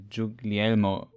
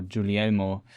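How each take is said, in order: First: Guglielmo with the G heard before the L, "joog-lee-EL-mo"; G sounded. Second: Guglielmo with no G before the L, "joo-lee-EL-mo"; silent G. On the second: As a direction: drop the middle G in Guglielmo. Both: Shown as a demonstration. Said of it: "the G is silent".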